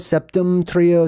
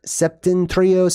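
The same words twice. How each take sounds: First: "septum trio" said slowly with an M; slow, higher "septum trio", M before trio; alternate pronunciation. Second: "septentrion" said slowly as septen-trio; slow, higher "septentrion", ending in trio; alternate pronunciation. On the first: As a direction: sound out "septum trio" as a variant. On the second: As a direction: sound out "septentrion" with an N before trio. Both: Shown as a demonstration. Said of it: "pronounced differently".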